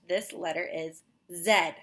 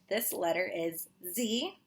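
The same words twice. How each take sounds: First: The letter is named the British way, 'zed'. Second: The letter is named the American way, 'zee'.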